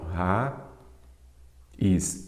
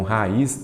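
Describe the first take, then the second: First: "ra, is" as two isolated syllables with a long pause; split into syllables. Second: Said in the usual way. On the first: Shown as a demonstration. Teacher separating raiz for students, "ra, is" syllable by syllable. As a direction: break raiz apart, "ra", pause, "is". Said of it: "vamos separar aqui". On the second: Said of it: "Então, raiz não tem acento".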